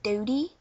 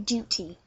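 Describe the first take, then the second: First: The middle consonant sounds like a soft D. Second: The middle consonant is a clear, strong T. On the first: "American or Canadian English, they don't say T, they say D" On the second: "We actually pronounce the T and uh, put more emphasis into the T"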